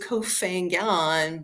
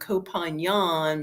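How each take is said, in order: First: The name is said the speaker's usual anglicized way. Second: The name is said imitating the local pronunciation. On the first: "I pronounce it Kofangan" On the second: "I'm going to try to go with Kopanyan"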